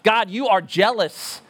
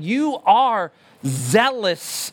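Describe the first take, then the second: First: Said in the usual way. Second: "You are zealous" drawn out slowly, You leaned on; stress on You. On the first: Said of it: "That's what we're saying". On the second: Shown as a demonstration. Pastor restating the prayer to the congregation, slow and stressed. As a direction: slowly spell out the real meaning, zealous stretched. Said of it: "is what we're saying".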